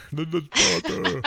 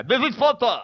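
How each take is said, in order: First: Laughing while copying the voice; laughing echo. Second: A playful put-on voice for a catchphrase; mock character voice. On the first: Pretend. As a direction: repeat the line through a laugh. Echoing the bit, laughing. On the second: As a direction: toss it off in a silly character voice. Doing a character voice bit.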